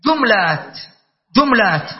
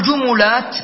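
First: جملات said jum-lat, mim silent; جملات with no vowel on the mim, jumlat; plural with sukun. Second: جملات said ju-mu-lat, middle ميم with damma; جملات with the mim voweled, jumulat; vowel-following plural. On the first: Teacher giving students the second form: جملات as jumlat. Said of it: "الوجه الثاني إيش؟". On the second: Teacher reminding students of the first form: جملات as jumulat. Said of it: "فإذا في جمل كنا نقول جملات". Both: Shown as a demonstration.

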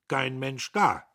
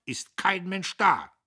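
First: Langsam, laut, grimmig geknurrt; knurrend. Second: Laut und hoch, langsam hinausgeschrien; geschrien. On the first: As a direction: jedes Wort schwer und mürrisch hinsetzen. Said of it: "Der Major knurrte". (der Major knurrt über den leeren Tisch) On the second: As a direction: mit voller Wut in den Raum rufen. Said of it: "schrie er noch auf der Treppe". (der Major schreit beim Gehen über den leeren Tisch) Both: A narrator's reading.

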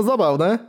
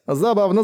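First: High giggly creature voice; amused creature, rising. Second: Amused creature. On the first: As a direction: savor it with delight. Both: A narrator's reading. Amused creature repeats word.

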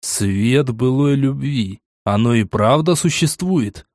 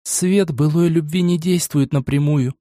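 First: Медленно, с изумлением повторяет «Свет былой любви»; тянет слова, не веря услышанному; поражённо. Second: Высокий, неспешный девичий голос; спокойно объясняет, как сестра; девичий голос Милы. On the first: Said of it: "поражённо проговорил я". (изумлённо, медленно) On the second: Мила объясняет заклинание. (высокий девичий голос, неспешно) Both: A narrator's reading.

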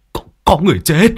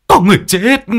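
First: Stuttered, higher and quick terrified cry; stammering panic. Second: Much higher and louder terrified yell; panicked scream. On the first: Old Đinh telling villagers of a death, stammering panic. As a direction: stammer in shock. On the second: Old Đinh crying to the village about the corpse, panicked scream. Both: A narrator's reading. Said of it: "mà mếu máo".

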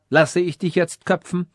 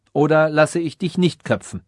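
First: "jetzt köpfen" posed as a raised-pitch question; first alternative. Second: "nicht" emphasised, the question falling to its end; stress on NICHT. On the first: King testing the wise man, "jetzt köpfen" as a higher first option. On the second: King testing the wise man, weight on "nicht", falling close. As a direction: lean on "nicht" as the closing alternative. King poses two alternatives. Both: A narrator's reading.

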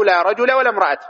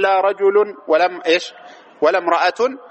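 First: "رجل" ending in bare -a, rajula; "لا رجل ولا امرأة" with fatha, no tanwin. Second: "رجل" and "امرأة" ending in -un; "رجل" and "امرأة" with nunated damma; nominative tanwin. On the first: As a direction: say "رجل" with final a, no n. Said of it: "كما تحب". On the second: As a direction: say rajulun for "رجل", imra'atun for "امرأة". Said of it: "تكررت جاز الإعمال". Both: Shown as a demonstration.

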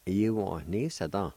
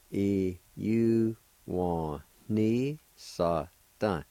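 First: Said in the usual way. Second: "E U wa ni sa da" drawn out very slowly; slow joined-up word. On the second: Shown as a demonstration. Teacher modelling the whole word very slowly. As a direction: stretch "E U wa ni sa da" slowly as one word. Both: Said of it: "It's pronounced like this".

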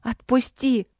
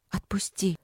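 First: High-pitched angry plea; sharp, upset demand to be freed; tearful anger. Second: Soft, drained order; weak, quiet demand after crying; faltering command. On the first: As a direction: cry it out, pitched up. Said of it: "прошипела я, давясь слезами". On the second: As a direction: ask to be freed, voice down. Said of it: "приказала я прерывающимся голосом". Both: A narrator's reading.

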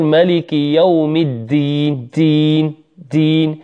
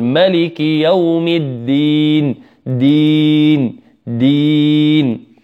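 First: الدين with air escaping on the d; whispery release on the doubled d in الدين; mistaken breathy d. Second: Slow recitation, الدين with a firm breathless d; correct clean d. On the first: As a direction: demonstrate the fault, a puff of breath on the d of دين. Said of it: "يخرجها بنفس ومع همس". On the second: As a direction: chant دين with a voiced d and long held ii. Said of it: "ننطقها صحيحة ولا ننزل". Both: Shown as a demonstration.

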